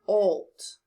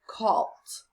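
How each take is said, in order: First: The vowel is a long o sound. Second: The vowel is a short o sound. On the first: The speaker calls it right. "Let's try it with a long O" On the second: The speaker calls it wrong. "Let's see if this is a short O"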